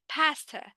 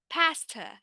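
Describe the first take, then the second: First: The first vowel is spread, said smiling. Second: The same.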